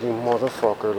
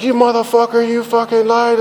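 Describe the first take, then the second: First: Imitating the wife's quiet, stunned curse; hushed insult. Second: Imitating the wife screaming at him for lying; angry wife catching his lie, shouting; furious wife. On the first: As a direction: quietly mutter it in stunned disbelief. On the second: Wife furious about hidden coke.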